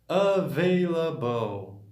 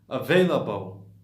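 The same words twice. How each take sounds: First: The word is said slowly. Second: The word is said quickly. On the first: "bem simples" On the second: "Agora rápido, normalmente"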